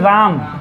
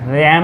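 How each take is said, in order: First: The vowel is a long open 'aa' sound. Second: The vowel is short, as in English 'ram'. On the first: It is read as the name Ram. The speaker calls it right. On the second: It is read as the English word. The speaker calls it wrong. "रैम नहीं"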